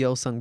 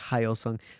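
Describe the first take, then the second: First: The name starts with a Y sound. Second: The name starts with an H sound. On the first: The speaker calls it right. "It's called a" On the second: The speaker calls it wrong. "a lot of people pronounce it like"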